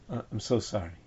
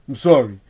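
First: The apology sounds heartfelt and sincere. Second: The apology sounds grudging and insincere.

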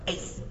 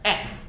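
First: The vowel glides like 'ei'. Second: The vowel is a plain short 'e'. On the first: The listener corrects the reader. The speaker calls it right. "no, Ace" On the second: The reader made a small mistake. The speaker calls it wrong. "he reads S instead of Ace"

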